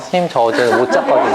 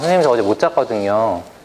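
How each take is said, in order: First: It is said in a cute, soft tone. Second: It is said bluntly, without a cute tone. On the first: It sounds like an endearing excuse. "예쁜 여학생" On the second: It sounds like a challenging excuse. "남학생이"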